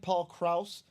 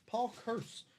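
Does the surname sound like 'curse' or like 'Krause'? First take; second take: Krause; curse. First: The surname sounds like Krause, with an ow vowel. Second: The surname sounds like the word curse. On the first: The speaker calls it right. "that sounds better than curse. it's not an E, it's an A" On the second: The speaker calls it wrong. "Am I putting an R?"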